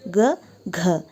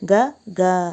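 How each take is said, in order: First: The second syllable has a strong puff of air. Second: The second syllable has no puff of air. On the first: The speaker calls it right. "ಅಲ್ಪ ಪ್ರಾಣ ಮಹಾಪ್ರಾಣದ ಅರಿವನ್ನು" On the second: The speaker calls it wrong. "But ಆ pronunciation completely wrong"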